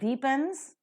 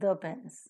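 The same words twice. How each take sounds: First: The article uses the form said before vowels. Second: The article uses the form said before consonants. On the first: The speaker calls it wrong. "you don't call it as the pens" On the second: The speaker calls it right. "but it is the pens"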